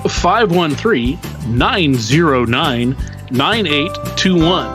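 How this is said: It is read in a put-on radio announcer voice. The speaker calls it right. "in the radio voice"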